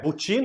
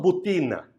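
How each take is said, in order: First: The t sounds like a ch sound. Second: The t sounds like a plain t. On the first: "butina eu falo tchê" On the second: "eu não falo butina"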